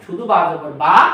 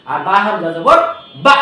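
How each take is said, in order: First: Said in the usual way. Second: বা said with a light catch, a short stop on the vowel; বা with a light glottal catch; hamza jab. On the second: Shown as a demonstration. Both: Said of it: "ওই বাটাকে খোঁচা দিলাম".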